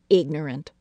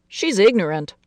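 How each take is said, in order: First: Said in the usual way. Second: Father's voice. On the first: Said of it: "narrator echoes the word". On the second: Acted. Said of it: "her father had said".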